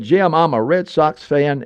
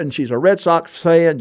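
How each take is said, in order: First: Slow, lightly put-on French accent; a hint of a French priest's accent, slow; mild French accent, drawn out. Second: Said in the usual way. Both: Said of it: "and with a French accent".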